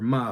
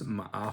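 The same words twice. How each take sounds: First: It is said in a light, neutral fifth tone. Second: It is said in a dipping third tone. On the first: It marks a question. "fifth tone" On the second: It means horse. "which is third tone"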